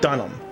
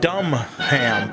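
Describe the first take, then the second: First: The first syllable sounds like 'dun', not 'dumb'. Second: The first syllable sounds like the word 'dumb'. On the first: The speaker calls it right. "So we'll go with Dunham" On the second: The speaker calls it wrong. "I was calling him Jeff Dumham"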